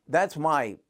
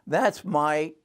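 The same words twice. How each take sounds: The two takes are said the same way.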